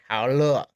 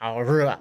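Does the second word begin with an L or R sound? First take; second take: L sound; R sound. First: The second word begins with an L sound. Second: The second word begins with a retroflex R sound. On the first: "They would change it to an L sound" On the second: "instead of saying how re"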